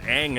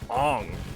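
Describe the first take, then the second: First: The vowel sounds like the 'a' in bang. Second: The vowel sounds like the 'o' in long. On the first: The speaker calls it right. "pronounce Aang as Aang" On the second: The speaker calls it wrong. "and not Ong"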